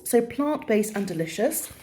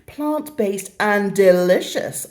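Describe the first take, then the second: First: Said in the usual way. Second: Slow, deliberate ad-style slogan with a rise; slow mock advert read. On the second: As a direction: sell it like a product tagline. Reading the product's slogan.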